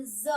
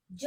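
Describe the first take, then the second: First: ज as a buzzing English z; dotted ज, pronounced z; nukta ज. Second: ज as English j, no nukta; undotted ज, as in j; plain ज. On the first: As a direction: say ज like the letter z. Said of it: "इसे बोलेंगे ज". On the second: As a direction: say ज with a hard j sound. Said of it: "ज नहीं". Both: Shown as a demonstration.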